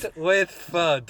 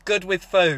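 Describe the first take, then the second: First: The last word has a short 'uh' vowel. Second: The last word has a long 'oo' vowel. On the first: "There's one area of Scotland where they say FUD" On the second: "I've got it, guys"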